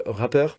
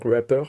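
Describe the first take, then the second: First: Said in the usual way. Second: "rapper" said the English way, French R, no final R; "rapper" with a self-mocked English accent; English word. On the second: Shown as a demonstration. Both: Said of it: "mon accent anglais est infernal".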